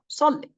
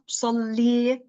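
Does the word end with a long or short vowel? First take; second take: short; long. First: The word ends with a short 'i' vowel. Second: The word ends with a long 'ee' vowel. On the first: The speaker calls it right. "I'm not adding a ya at the end" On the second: The speaker calls it wrong. "It's not salli"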